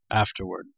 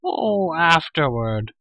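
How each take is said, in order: First: Said in the usual way. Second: High creature wail of dismay; crying-out Gurgi. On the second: A narrator's reading. Hungry creature told to wait for food, crying out. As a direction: cry it out, starting high and falling. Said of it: "cried Gurgi".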